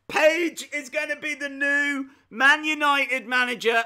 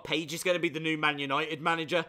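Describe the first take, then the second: First: Loud, high, thrilled announcement; excited shout. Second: Said in the usual way. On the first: Real, not acted. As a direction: shout it out with glee. Repeats idea, thrilled.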